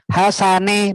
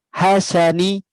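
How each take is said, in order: First: The final vowel is an 'eh' sound. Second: The final vowel is a clear 'ee' sound. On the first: The speaker calls it wrong. "bukan e" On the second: The speaker calls it right. "harus berbunyi i betul"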